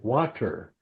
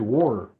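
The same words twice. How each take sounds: First: It is said in a Chicago accent. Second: It is said in a Memphis accent. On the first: This is the form locals could understand. "I had to learn how to say water" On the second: This is how he spoke before adapting. "Back then, I'd say water"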